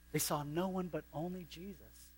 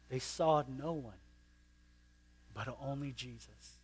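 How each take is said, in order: First: "no" lifted and held, "only Jesus" softening; stress on no. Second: Hushed. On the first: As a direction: land hard on "no". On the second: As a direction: let it sink in softly. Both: Shown as a demonstration.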